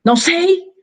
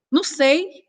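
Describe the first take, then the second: First: "Não sei." higher and louder, falling on "sei"; curt, louder reply. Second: "Não sei." pitched high with a rising end; higher uncertain reply. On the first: Answering a message curtly, higher and louder. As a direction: snap it back short. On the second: Answering a text while emotional, high and rising. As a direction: sound unsure and a bit hurt. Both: Shown as a demonstration. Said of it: "E ela vai ler com o tom".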